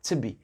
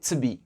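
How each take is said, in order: First: The word 'to' is shortened and reduced. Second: The same.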